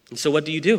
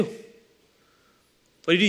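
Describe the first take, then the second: First: Said in the usual way. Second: Drawn-out, quieter rhetorical question; slowed, hushed echo of the question; slow, softer repeat. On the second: Shown as a demonstration.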